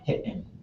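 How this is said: A glottal stop breaks the vowel. "you would have this glottal stop right in the middle"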